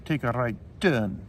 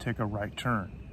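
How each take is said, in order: First: It is said in an Indian accent. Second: It is said in an American accent. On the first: "in Hindi accented English" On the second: "So in English, we would say"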